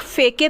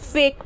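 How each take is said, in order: First: A vowel is sounded after the final k. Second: No vowel is sounded after the final k. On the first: The speaker calls it wrong. "फेके तो नहीं पढ़ते" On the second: The speaker calls it right. "फेक पढ़ते हैं"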